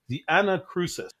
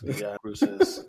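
First: It is said in a casual, everyday voice. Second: It is said in a polished, professional announcer voice.

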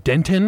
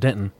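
First: The middle T sound is clearly pronounced. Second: The middle T sound is left out. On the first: Others correct the local way of saying it. "Everyone's like, "Do you mean Denton?"" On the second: This is how local people say the name. "I don't say the T"

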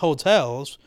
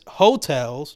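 First: The stress falls on the second syllable. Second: The stress falls on the first syllable. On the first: It is the ordinary word for places to stay. The speaker calls it wrong. "not Hotels" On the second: The speaker calls it right. "it's Hotels"

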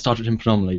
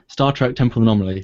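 First: It is said fast. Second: It is said slowly.

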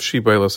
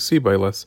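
First: The word begins with a sh sound. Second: The word begins with an s sound. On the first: The speaker calls it right. "instead of saying a shin" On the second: The speaker calls it wrong. "they say a samach"

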